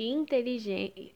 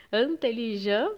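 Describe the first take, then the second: First: Said in the usual way. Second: "intelligent" with nasal "an" at start and end, T silent; French pronunciation. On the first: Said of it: "E também as palavras, por exemplo". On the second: Shown as a demonstration. Teacher showing students how French reads the word "intelligent", French nasal vowels. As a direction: say "intelligent" the French way, an-teli-jan. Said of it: "a gente lê como se fosse".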